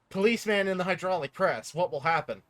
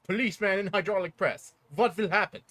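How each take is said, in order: First: The put-on character voice is weak and faint. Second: The put-on character voice is strong and full. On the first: The speaker calls it wrong. "you did not sound drink spur enough" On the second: The speaker calls it right. "There we go"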